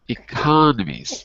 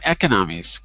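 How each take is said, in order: First: The stress is on the second syllable. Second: The stress is on the third syllable. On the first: The speaker calls it right. "second syllable when it's when it's plural" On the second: The speaker calls it wrong. "not economies, because we'd say economics"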